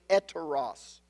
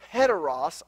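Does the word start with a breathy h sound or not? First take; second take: No h; H sound. First: The word begins directly with a vowel. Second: The word begins with a breathy h sound. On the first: The speaker calls it right. "I would say eteros" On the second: The speaker calls it wrong. "I wouldn't say heteros"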